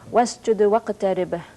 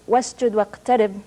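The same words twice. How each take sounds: First: A short echo vowel follows the consonants. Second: The consonants end cleanly without an echo vowel. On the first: This is the recited form of scripture. "gives to four consonants ... a vowel sound u, shwa" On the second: This is the ordinary literary reading. "in literary Arabic reads"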